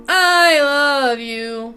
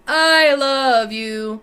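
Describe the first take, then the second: First: The voice is harsh, brash and nasty. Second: The voice is harsh, brash and nasty.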